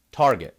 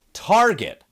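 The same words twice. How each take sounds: First: Fake-fancy Target as Tar-zhay; mock French Tarzhay. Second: Said in the usual way. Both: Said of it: "as a good friend of mine calls them".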